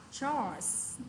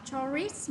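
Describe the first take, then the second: First: "chores" said as one syllable, "chors", no extra vowel; correct pronunciation. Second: "chores" said wrongly as "chor-ris" with an extra final syllable; wrong pronunciation. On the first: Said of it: "mà mình đọc là chores". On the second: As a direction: say "chores" with an added "-ris" ending, the mistake to avoid. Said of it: "Chúng ta không đọc là chores". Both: Shown as a demonstration.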